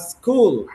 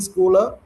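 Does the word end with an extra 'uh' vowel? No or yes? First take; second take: no; yes. First: The word ends cleanly with no added vowel. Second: The word ends with an added 'uh' vowel. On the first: The speaker calls it right. "you have to say uh, school" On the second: The speaker calls it wrong. "do not use uh, at the end of the word"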